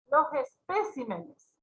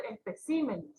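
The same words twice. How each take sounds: First: "especímenes" slowly misstressed as es-PÉ-cimenes; wrong stress on PÉ. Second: "especímenes" stressed as espe-CÍ-menes; correct stress on CÍ. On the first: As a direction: put the stress of "especímenes" too early, on PÉ. ("especímenes" mal acentuado en PÉ) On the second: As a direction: land the stress of "especímenes" on the third syllable. ("especímenes" con acento en CÍ) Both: Shown as a demonstration. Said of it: "y tiene que ser".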